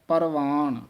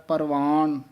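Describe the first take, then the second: The two takes are said the same way.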